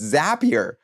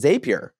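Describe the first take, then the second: First: The first syllable rhymes with happy. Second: The first syllable does not rhyme with happy. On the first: The speaker calls it right. "no, it's Zapier, like Zapier" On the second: The speaker calls it wrong. "I always said Zapier"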